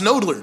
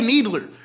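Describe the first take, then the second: First: The first vowel sounds like 'oh'. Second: The first vowel sounds like 'ee'. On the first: This is how the spelling says the street name. The speaker calls it right. "It should be pronounced nodler" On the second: This is how locals say the street name. The speaker calls it wrong. "we say needler"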